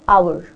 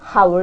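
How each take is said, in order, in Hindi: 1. शब्द स्वर से शुरू होता है, h नहीं है। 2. शब्द की शुरुआत में h की आवाज़ साफ़ सुनाई देती है। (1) "So H is not pronounced here" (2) "It's not hour"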